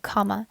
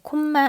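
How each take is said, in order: First: It is said with English-style pronunciation. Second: It is said with Korean-style syllables. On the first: The speaker calls it right. "원래는 comma예요" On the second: The speaker calls it wrong. "콤마 아니고요"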